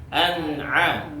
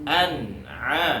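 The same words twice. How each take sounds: Both takes have the same delivery.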